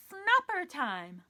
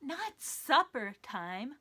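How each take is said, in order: First: Snupper said slowly and clearly; stress on snupper. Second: NOT said slowly and firmly; stress on not. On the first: A host stressing the made-up word snupper. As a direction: spell out the new word with weight. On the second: A host correcting the puppet's mishearing. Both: Shown as a demonstration. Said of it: "Not supper time. Snupper time".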